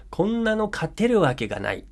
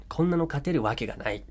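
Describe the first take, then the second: First: High, hopeless cry of こんなの勝てるわけがない; despairing teammate. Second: Said in the usual way. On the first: Shown as a demonstration. Teammate giving up, voicing hopeless despair. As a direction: sound like the game is already lost. Example sentence said with feeling.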